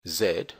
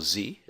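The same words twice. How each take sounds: First: "Z" said as "zed"; British Z. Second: "Z" said as "zee"; American Z. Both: Shown as a demonstration. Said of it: "as it's pronounced in the United States".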